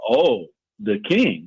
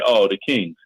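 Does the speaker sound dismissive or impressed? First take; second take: impressed; dismissive. First: The words sound impressed and respectful. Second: The words sound dismissive and unimpressed. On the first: The team was once feared and respected. "there was a time when it was like" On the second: The team is not taken seriously now. "It's like"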